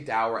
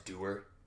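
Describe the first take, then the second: First: The vowel rhymes with sour. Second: The vowel rhymes with tour. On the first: "don't you technically say dour as doer?" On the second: "Isn't that the correct way to pronounce it?"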